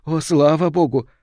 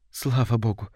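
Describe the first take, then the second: First: Higher, louder cry of relief; heartfelt, raised exclamation of relief; bursting relief. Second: Understated, involuntary relief; mild relief under the breath; relieved murmur. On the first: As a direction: let the thanks burst out. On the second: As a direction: let the thanks slip out. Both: A narrator's reading. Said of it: "вырвалось у матери".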